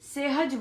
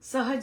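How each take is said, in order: First: The first syllable has an 'eh' vowel. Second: The first syllable has a short 'a' vowel. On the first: The speaker calls it wrong. "सेहज बोलते हैं सब" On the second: The speaker calls it right. "स बोलना है, से नहीं बोलना"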